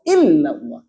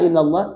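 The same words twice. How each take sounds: First: The L sound is held long and doubled. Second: The L sound is short and single. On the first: It means 'except Allah'. The speaker calls it right. "harus illallah. Ada tasdid" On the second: It means 'to Allah'. The speaker calls it wrong.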